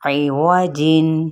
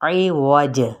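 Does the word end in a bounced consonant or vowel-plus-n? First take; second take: vowel-plus-n; bounced consonant. First: The j is followed by a vowel and n. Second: The final j ends with a bounced release.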